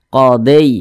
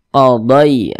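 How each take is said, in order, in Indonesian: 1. Vokal akhirnya condong ke bunyi 'e'. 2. Vokal akhirnya adalah luncuran 'ai' yang lembut dan mudah. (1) "jangan sampai condong ke e, jangan dibaca qadai" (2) "qada pakai lunak mudah saja"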